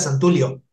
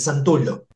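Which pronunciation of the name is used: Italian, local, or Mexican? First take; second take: Mexican; Italian. First: The name is said the way people said it in Mexico. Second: The name is said with its Italian pronunciation. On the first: The speaker calls it wrong. "en México era Santulio" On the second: The speaker calls it right. "La pronunciación es, es italiana, es Santullo"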